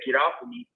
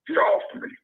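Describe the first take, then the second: First: It is said in his own normal voice. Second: It is said in a changed, unfamiliar voice.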